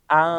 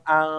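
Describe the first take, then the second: The two takes are said the same way.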